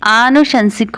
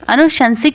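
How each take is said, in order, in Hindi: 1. पहला स्वर लंबा 'aa' है। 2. पहला स्वर छोटा 'a' है। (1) "आनुशंसिक होता है" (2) "अनुशंसिक नहीं"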